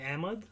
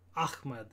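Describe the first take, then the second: First: The name ends in a 'mud'-like syllable. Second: The name ends in a clear 'med' syllable. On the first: "we sort of say Ahmed, Ahmed for like kind of the Pakistani style" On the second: "the Arabic way that some people say is like Ahmed"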